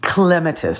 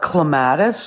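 First: The stress is on the first syllable. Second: The stress is on the second syllable. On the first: This is the proper pronunciation from the Greek root. The speaker calls it right. "the proper name, way to pronounce it is clematis" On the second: This is the common everyday pronunciation. The speaker calls it wrong. "most of us call it clematis, like clemato juice"

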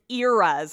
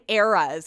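First: The first vowel sounds like 'ear'. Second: The first vowel sounds like 'air'. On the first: "we don't say it like that" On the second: "so you pronounce E's like A's?"

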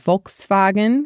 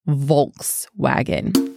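First: The first sound is like an F. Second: The first sound is like a V. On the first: This is the German way to say it. "which sounds a little bit like an F to me" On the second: This is the American way to say it. "we would say Volkswagen"

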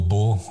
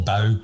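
First: The word is said in a Scottish accent. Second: The word is said in an English accent. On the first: Listeners do not understand the place name. "if you say Bow a Scottish accent" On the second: Listeners understand the place name. "You have to go"

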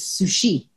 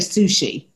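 First: The stress is on the final syllable. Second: The stress is on the first syllable. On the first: This is the Japanese way of saying it. "Japanese, it's sushi. ... The emphasis is on the final syllable" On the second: This is the English way of saying it. "We say sushi"

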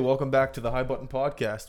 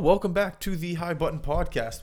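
First: It is said flatly, without enthusiasm. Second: It is said with more enthusiasm.

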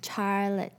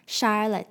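First: The name begins with a ch sound. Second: The name begins with an sh sound. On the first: The speaker calls it wrong. "我把夏绿蒂这个英文名字讲成Charlotte" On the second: The speaker calls it right. "但它其实应该是SH 的发音哦，是Charlotte 这样子"

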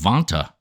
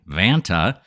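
First: The name is said with a British accent. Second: The name is said with an American accent. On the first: The speaker calls it wrong. "I was saying Vonta for the longest time. ... I've been living in the UK far too long" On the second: The speaker calls it right. "I'm going to put my deepest American accent on I can"

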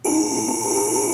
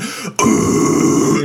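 First: The scream is held back and not angry. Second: The scream is loud and aggressive. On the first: The singer is performing without real aggression. The speaker calls it wrong. "someone sitting in their room or in the vocal booth going" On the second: The singer is really yelling with genuine anger. The speaker calls it right. "like that. Like he sounds like he would be loud"

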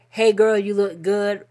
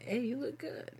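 First: It sounds friendly and platonic. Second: It sounds romantic and flirty.

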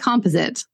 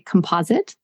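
First: It is said with a non-American pronunciation. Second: It is said with the American pronunciation. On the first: "I say composite" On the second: "the correct way of saying it, as per an American dictionary"

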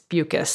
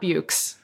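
First: The name rhymes with mucus. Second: The name does not rhyme with mucus. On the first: The speaker calls it right. "her name rhymes with mucus" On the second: The speaker calls it wrong. "it's not Bukes"

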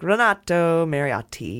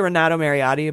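First: The name is said Italian-style with hard T sounds. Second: The name is said plainly with soft T sounds. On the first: "Hit those T's hard" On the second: "I could say Renato Mariotti"

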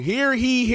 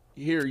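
First: The second word begins with an h sound. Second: The second word begins with a y sound. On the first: The speaker calls it wrong. "Everybody say it's wrong" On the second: The speaker calls it right. "It's here ye"

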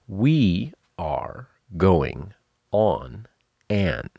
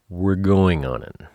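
First: Each word is said separately and fully. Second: The words are smashed together like one word. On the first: "That is, we are going on an. Five words, six syllables" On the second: "it's all smashed together. It sounds like a single word"

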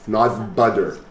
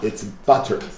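First: The middle consonant sounds like a D. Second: The middle consonant is a crisp T sound. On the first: The speaker calls it wrong. "A lot of your T's are D's" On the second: The speaker calls it right.

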